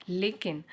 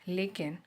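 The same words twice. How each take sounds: Both takes have the same delivery.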